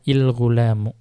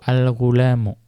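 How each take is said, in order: First: The word begins with an 'i' vowel. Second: The word begins with an 'a' vowel. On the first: The speaker calls it wrong. "Tidak boleh dibaca il-ghulamu" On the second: The speaker calls it right. "fathah itu wajib untuk yang pertama"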